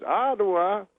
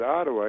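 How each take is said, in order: First: High questioning echo in impression; Bill Cosby. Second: Said in the usual way. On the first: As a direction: repeat it high, as a comedian's question. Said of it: "He goes". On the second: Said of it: "And I said".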